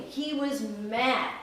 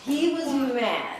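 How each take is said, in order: First: He was mad, drawn out slowly with "mad" stressed; slow down and lean on "mad". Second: He was mad, stretched slowly with weight on "mad"; slow, heavy emphasis on "mad"; slow stress on mad. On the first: Telling children the lion's anger, slow stress on "mad". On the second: Answering the child, slow stress on "mad". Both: A narrator's reading.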